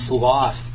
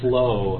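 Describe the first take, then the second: First: The word rhymes with 'cough', ending in an f-sound. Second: The word rhymes with 'though', ending in a vowel. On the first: "Nobody says it that way either" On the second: "Nobody says it that way"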